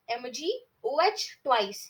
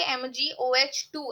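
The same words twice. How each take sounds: First: एमजीओएच twice, read out as "twice". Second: एमजीओएच टू, read with "टू" at the end; the wrong way: एमजीओएच टू; wrong reading with two. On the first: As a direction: say एमजीओएच twice, not two. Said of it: "इसको ऐसे पढ़ा जाता है". (एमजीओएच twice ऐसे पढ़ो) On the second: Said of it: "हम ऐसे नहीं पढ़ेंगे". (गलत उच्चारण एमजीओएच टू) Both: Shown as a demonstration.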